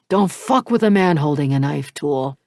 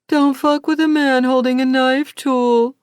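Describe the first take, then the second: First: It is said in a normal, snapping voice. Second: It is said in a childish, high-pitched voice.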